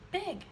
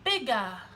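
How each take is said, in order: First: The word ends cleanly on the g sound. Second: An extra vowel sound follows the final g. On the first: The speaker calls it right. "We don't want to uh at the end of a word" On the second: The speaker calls it wrong. "they say bigga"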